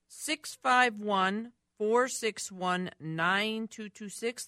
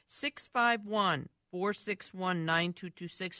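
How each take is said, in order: First: It is said more slowly. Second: It is said at normal speed.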